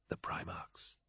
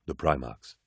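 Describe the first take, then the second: First: Very soft whispered echo; whispered agreement. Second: Low, hushed character voice; low, quiet statement. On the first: Agreed Sejanus. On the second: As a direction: say it low and soft, falling away. One character names them, low. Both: A narrator's reading.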